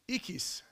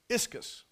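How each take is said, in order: First: The word has Greek pronunciation, without an s sound. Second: The word has English pronunciation, with an sk sound. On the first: "The Greek pronunciation of the word strength is ikis" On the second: "that's an English treatment of Greek letters"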